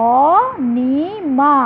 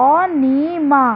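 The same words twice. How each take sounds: First: অ, নি, মা said as three separate syllable steps with a pause after each; split into syllables. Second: Said in the usual way. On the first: Shown as a demonstration. Teacher to students, showing অনিমা's syllables one at a time. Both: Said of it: "উচ্চারণের এই এক একটি ধাপকে বলে অক্ষর".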